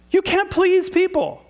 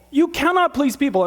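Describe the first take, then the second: First: "can't please people" slow and high-pitched; slow, insistent, pitched way up; emphatic preaching. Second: "cannot" punched high; insistent repeat with "cannot" in full; stress on CANNOT. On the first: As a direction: hammer each word of "can't please people". Preacher hammers the point, then repeats it. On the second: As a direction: restate it firmly, leaning on "cannot". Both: Real, not acted.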